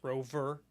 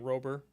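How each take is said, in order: First: The middle consonant sounds like a V. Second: The middle consonant sounds like a B. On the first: The speaker calls it right. "It's not. It's rover" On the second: The speaker calls it wrong. "I keep saying rover. Rover with a B"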